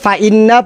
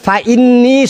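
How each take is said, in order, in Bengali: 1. শব্দটি 'a' স্বরধ্বনি দিয়ে শেষ হয়। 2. শব্দটি 'i' স্বরধ্বনি দিয়ে শেষ হয়। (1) "উনি পড়তেছেন ফাইন্না" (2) "ফাইন্নি শব্দটি বুখারী শরীফের"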